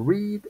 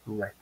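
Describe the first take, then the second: First: The vowel is a long 'ee' sound. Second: The vowel is a short 'e' sound. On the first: It is the present or infinitive form. "en infinitivo" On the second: It is the past form. "en pasado"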